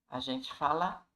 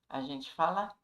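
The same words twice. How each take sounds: Both takes have the same delivery.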